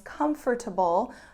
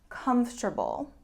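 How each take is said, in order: First: The word is said with four syllables. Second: The word is said with three syllables. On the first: "should actually be four syllables" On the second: "most of the time it's reduced to three"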